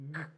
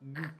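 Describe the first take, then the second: First: It is said with a hard g sound. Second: It is said with a hard g sound.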